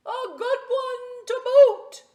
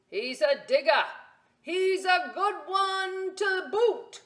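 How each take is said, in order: First: Even higher, louder, slow pirate chorus; the crew cheering back; crew echoing. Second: Loud, high pirate shout, slowing; pirate yell. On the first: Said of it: "the others agreed". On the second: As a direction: call to the crew like a proud captain. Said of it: "then yelled back to his crew". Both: Acted.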